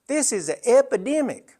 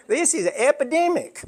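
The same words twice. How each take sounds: First: Higher, lightly voiced nurse stating epidemic; a hint of a firm Southern nurse, higher; Southern head nurse. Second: Higher imitation, lightly voiced nurse; Southern head nurse. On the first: Nurse telling a grieving son, lightly voiced higher. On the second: Speaker repeating the nurse's exact words, lightly imitated higher. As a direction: echo the nurse just as she said it, higher. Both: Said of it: "That's exactly the way she said it".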